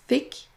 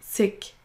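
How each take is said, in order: First: The word begins with a th sound. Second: The word begins with an s sound. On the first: "Pour le premier, donc votre langue va démarrer au niveau de vos dents" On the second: "Pour le deuxième, on aura juste un son S classique"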